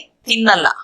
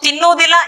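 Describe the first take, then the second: First: The word is said in a shortened form. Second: The word is said in its full form. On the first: This is the everyday spoken form. "स्पोकन में बोलेंगे" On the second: This is the written, formal form. "ये पढ़ने लिखने question में हो गया"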